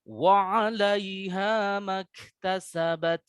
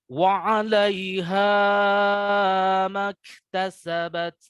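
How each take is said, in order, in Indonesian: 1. Vokal pada "ma" pendek dan tersambung. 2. Vokal pada "ma" dibaca panjang. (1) "seperti itu ya cara kita membacanya" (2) "saya contohkan yang salah ... Jangan terlalu panjang"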